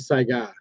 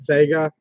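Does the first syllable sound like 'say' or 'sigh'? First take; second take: sigh; say. First: The first syllable sounds like 'sigh'. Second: The first syllable sounds like 'say'. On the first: The speaker calls it right. "but it's actually Saiga" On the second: The speaker calls it wrong. "I always get caught saying Sega"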